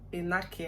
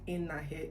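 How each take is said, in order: First: The middle consonant is sounded as a K. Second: The middle consonant is not sounded as K. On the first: This is how the name is said on television. "I hear them say Enake" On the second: This is how the family's own area says the name. "the K is silent in pronouncing"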